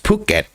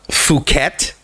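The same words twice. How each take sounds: First: The first sound is a clear P sound. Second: The first sound is an F sound. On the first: The speaker calls it right. "it's it's it's Phuket. ... very noticeable P" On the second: The speaker calls it wrong. "I have heard some people say uh, Phuket, like pronounce the P H"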